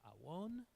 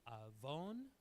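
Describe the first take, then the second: First: The middle consonant is a w sound. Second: The middle consonant is a v sound. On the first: This is the classical pronunciation. "is actually pronounced awon" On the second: This is the modern pronunciation. "the word for iniquity is avon"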